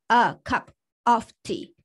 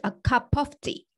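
First: Each word is pronounced fully and separately. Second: The words run together with some sounds dropped. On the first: The speaker calls it wrong. "你不会说a cup of tea" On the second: The speaker calls it right. "这边是有连读和吞音这些东西的"

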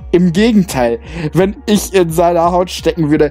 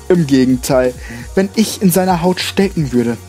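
First: It is read in the narrator's normal voice. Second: It is read in a put-on character voice.

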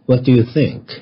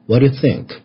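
First: Each word is said fully and separately. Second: The words are said lightly and run together.

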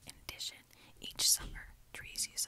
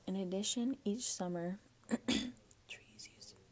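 First: It is spoken in a soft whisper. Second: It is spoken in a normal, full voice.

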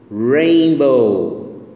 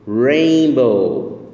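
Both takes have the same delivery.

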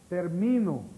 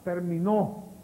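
First: The stress is on the middle syllable. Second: The stress is on the last syllable.

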